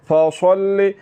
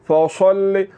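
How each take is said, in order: Both takes have the same delivery.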